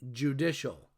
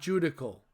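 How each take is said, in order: First: The word ends with a 'shal' sound. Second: The word ends with a 'kal' sound. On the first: The speaker calls it right. "Yes, judicial" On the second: The speaker calls it wrong. "not judical. Please don't pronounce it that way"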